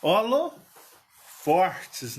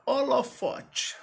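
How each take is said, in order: First: "Holofortes" drawn out slowly with an added r, ho-lo-FOR-tes; Minas pronunciation. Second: "holofote" said slowly and carefully, no r, ending in -tchi; standard pronunciation. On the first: Showing how people in Minas say "Holofortes", slowly with the r. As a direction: say "Holofortes" the mineiro way, slow, with a clear r before the t. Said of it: "o povo fala holofortes".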